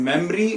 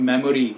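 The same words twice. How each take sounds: First: Memory in two syllables, mem-ree; correct pronunciation. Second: Memory in three syllables, me-mo-ree; wrong pronunciation. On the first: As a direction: drop the middle o in memory. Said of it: "It is". (memory का सही उच्चारण, मेम-री) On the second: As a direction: sound the middle o in memory. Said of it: "it is not". (memory का गलत उच्चारण, मे-मो-री) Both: Shown as a demonstration.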